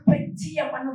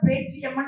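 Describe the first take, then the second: First: The first vowel is short. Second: The first vowel is long. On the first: The speaker calls it wrong. "இன்னொரு குரல் பெச்சியம்மன் பாடி இருக்கு" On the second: The speaker calls it right. "ஒரு குரல் கரெக்டா பேச்சியம்மன் பாடு"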